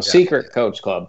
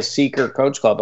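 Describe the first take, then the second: First: "Secret" with its final t kept; corrected pronunciation. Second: "Seeker" in place of secret, no t; misheard pronunciation. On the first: Shown as a demonstration. Correcting the confused visitor, "Secret" with the t sounded. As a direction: say "Secret" with the t, not Seeker. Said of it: "No, it's like". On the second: Retold or imitated. Quoting a confused visitor, "Seeker" said without the t. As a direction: drop the t to make "Seeker". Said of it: "thought I was saying".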